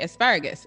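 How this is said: It is said with an American pronunciation. "in the U S we say asparagus"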